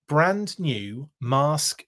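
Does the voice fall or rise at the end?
fall. It is said as a statement, falling. The speaker calls it wrong.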